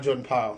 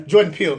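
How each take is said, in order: First: Peele said as "Pile", low and soft; mispronounced surname. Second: Said in the usual way. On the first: Real, not acted. Host correcting a slip on the director's name, Peele mispronounced as "Pile". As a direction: say Peele to rhyme with "mile", as a quiet slip. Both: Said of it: "not Jordan Peele, excuse me".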